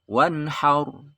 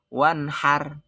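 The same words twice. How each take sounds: First: Wanhaur with a full, rounded r; correct thick r. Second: Wanhar with a light, thin final r; wrong thin r. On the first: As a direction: stretch the ending into wanhaur. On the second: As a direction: end wanhar with a weak r. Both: Shown as a demonstration.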